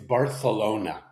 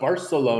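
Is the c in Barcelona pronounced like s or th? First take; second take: th; s. First: The c is pronounced as a th sound. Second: The c is pronounced as an s sound. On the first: "because of the lisping" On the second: "It's not"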